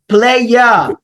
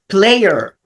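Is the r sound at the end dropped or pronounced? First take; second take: dropped; pronounced. First: The final r sound is dropped. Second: The final r sound is clearly pronounced. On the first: "not saying the R sound" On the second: "They speak this letter at the end of the word"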